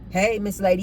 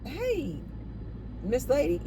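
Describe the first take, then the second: First: The greeting is loud and aggressive. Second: The greeting is soft and gentle. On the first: The man expects a response as if entitled to one. "In that same aggressive way" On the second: The man just wants to pay a compliment and move on. "It's not like"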